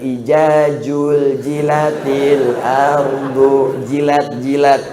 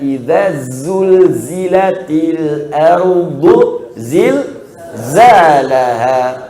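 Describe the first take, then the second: First: The consonants are pronounced as a j sound. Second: The consonants are pronounced as a buzzing z. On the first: The speaker calls it wrong. "Ada yang" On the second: The speaker calls it right.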